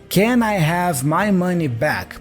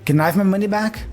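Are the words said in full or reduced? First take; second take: full; reduced. First: Each word is said fully and separately. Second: The first words blur into one short syllable.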